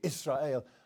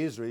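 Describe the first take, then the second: First: It has a Hebrew-style pronunciation. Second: It has the ordinary English pronunciation. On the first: "you say Israel" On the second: "You don't say Israel"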